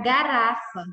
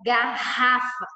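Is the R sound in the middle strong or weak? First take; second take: weak; strong. First: The middle R is a weak, light sound. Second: The middle R is a strong, heavy sound. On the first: The speaker calls it wrong. "Se eu tirar um R e ficar só com um, vai ficar garrafa" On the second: The speaker calls it right. "A gente fala garrafa"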